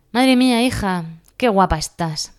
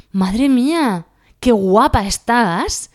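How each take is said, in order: First: A mock compliment with a sarcastic edge; offhand compliment. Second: Loud, drawn-out, high admiring praise; slow, loud, delighted compliment. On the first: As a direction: toss it off like a dismissive remark. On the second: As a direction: gush it out slowly. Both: Shown as a demonstration. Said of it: "Cambia todo con la entonación".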